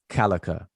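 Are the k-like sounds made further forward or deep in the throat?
forward. Its consonants are plain front k sounds. The speaker calls it wrong. "They'll say kalaka"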